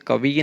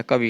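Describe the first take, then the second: First: कवि with a long final "vee"; wrong form. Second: कवि with short final i; correct form. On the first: Teacher rejecting a spelling, कवि drawn out to "kavee". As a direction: stretch the last vowel of कवि. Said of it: "कवि नहीं होता". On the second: Teacher giving the correction, कवि with brief final vowel. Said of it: "कवि होता है". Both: Shown as a demonstration.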